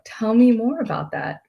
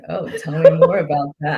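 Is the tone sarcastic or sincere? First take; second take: sincere; sarcastic. First: It sounds sincere and genuinely curious. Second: It sounds sarcastic and mocking.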